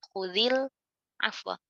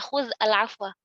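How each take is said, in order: First: An 'i' vowel links the first word onward. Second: The first word ends on a bare consonant. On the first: The speaker calls it right. "Dikasihkan harokat huruf pertamanya. Jadi khudzil afwa gitu" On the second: The speaker calls it wrong. "Ini kan nggak mungkin kita baca"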